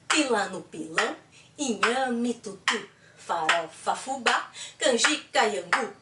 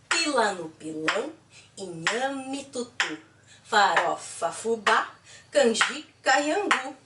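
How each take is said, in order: First: It is said a little faster. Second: It is said at a normal speed.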